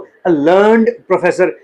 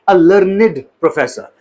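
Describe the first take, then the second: First: 'Learned' is said with one syllable. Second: 'Learned' is said with two syllables. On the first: The speaker calls it wrong. "यहां पर हम इसको a लर्नड professor नहीं कहेंगे" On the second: The speaker calls it right. "It is pronounced as लर्निड"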